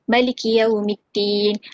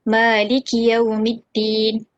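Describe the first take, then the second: First: The vowel after the m is short. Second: The vowel after the m is long. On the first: "akan menghadafkan alif pada kalimah maliki" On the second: "akan mengisbatkan alif uh, selepas pada huruf mim pada kalimah maliki"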